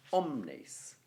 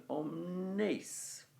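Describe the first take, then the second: First: "omnes" stressed on the "om", falling on "nes"; OM-nes, as the word is naturally stressed; natural stress on first syllable. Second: "omnes" with drawn-out weight on "nes"; om-NES, as the meter suggests; stress on last syllable. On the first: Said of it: "the natural stress of the word is on the o". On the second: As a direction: push the stress onto the end of "omnes". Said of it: "Because the nes bit is the beginning". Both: Shown as a demonstration.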